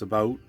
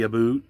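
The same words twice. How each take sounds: First: It is said with a standard vowel. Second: It is said with a stereotyped Canadian vowel. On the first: This is how the speaker actually talks. The speaker calls it right. "It's about" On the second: This is how outsiders imagine Canadians talk. The speaker calls it wrong. "I don't say about"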